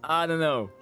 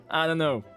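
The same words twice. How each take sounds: The two takes are said the same way.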